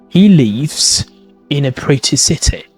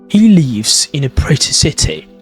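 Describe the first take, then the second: First: The T sounds are clearly pronounced. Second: The same.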